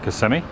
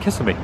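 First: The name is pronounced the way locals say it. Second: The name is pronounced the way outsiders say it. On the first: The speaker lives in the town. "The locals call it Kissimmee" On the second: The speaker is from out of town. "Those from out of town call it Kissimmee"

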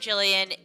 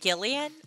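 First: The name begins with a soft J sound. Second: The name begins with a hard G sound. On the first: The speaker calls it right. "Jillian isn't a hard G" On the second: The speaker calls it wrong. "do people really pronounce it Gillian?"

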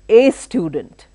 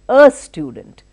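First: The article is a full 'ay' sound. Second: The article is a reduced 'uh' sound. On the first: The speaker calls it wrong. "I don't say a student" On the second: The speaker calls it right. "I say a student"

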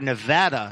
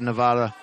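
First: Nevada is pronounced the way locals say it. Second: Nevada is pronounced in a non-local way.

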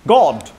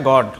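First: It is said with a British accent. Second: It is said with a Bengali accent.

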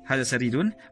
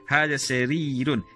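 First: The vowel after the first r is short. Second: The vowel after the first r is held long. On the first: The speaker calls it wrong. "you are not going to pronounce it" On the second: The speaker calls it right. "it should be hadha sarirun"

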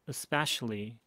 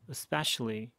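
Both takes have the same delivery.

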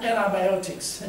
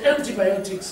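First: It is said with an American accent. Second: It is said with a non-American accent.

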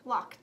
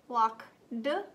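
First: The word ends with a 't' sound. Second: The word ends with a 'd' sound. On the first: The speaker calls it right. "You're right, it makes the t sound" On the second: The speaker calls it wrong.

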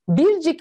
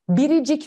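First: No vowel is heard between bir and cik. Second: An extra i vowel joins bir and cik. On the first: The speaker calls it wrong. "Biz bircik mi diyoruz" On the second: The speaker calls it right. "Biricik diyoruz"

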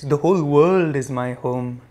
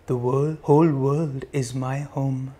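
First: The voice is at normal speaking volume. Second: The voice is quiet and soft. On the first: "In a regular voice" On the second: "Softer now"

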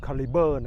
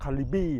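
First: The word ends with a 'ber' sound. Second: The word ends with a 'bee' sound. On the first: The speaker calls it right. "ออกเสียงให้ถูกก็คือคาลิเบอร์" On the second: The speaker calls it wrong. "บางคนนี่ออกเสียงว่าคาลิบี้ไม่ใช่นะครับ"

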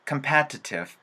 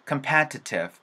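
No difference in how they are said.

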